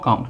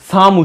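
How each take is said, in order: First: The word begins with a k sound. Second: The word begins with an s sound. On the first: The speaker calls it right. "কয়ের মতো উচ্চারণ হলো" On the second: The speaker calls it wrong. "সে এই কামটাকে সাম উচ্চারণ করছে"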